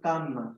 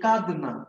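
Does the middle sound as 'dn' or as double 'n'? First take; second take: double n; dn. First: The middle has a doubled n sound. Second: The middle has a d followed by n. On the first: This is how people say it now. "আমরা বলি কিন্তু কান্না" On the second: This is the older form. "যদি বলি কাঁদনা"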